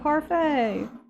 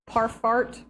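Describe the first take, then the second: First: The word ends with a 'fay' sound. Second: The word ends with a 'fart' sound. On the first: The speaker calls it right. "no, parfait" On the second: The speaker calls it wrong. "the girl was going parf, parfart"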